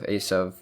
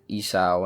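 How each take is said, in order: First: The name ends in a v sound. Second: The name ends in a vowel sound. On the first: This is the original Hebrew form of the name. The speaker calls it right. "instead of" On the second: This is the common English form of the name. The speaker calls it wrong. "they changed the pronunciations"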